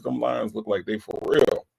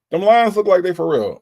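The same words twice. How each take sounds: First: Said in the usual way. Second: Higher, louder hype for the Lions; excited praise. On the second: Real, not acted. Host hyping the Lions to a Detroit fan, excited. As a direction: hype it up for the team.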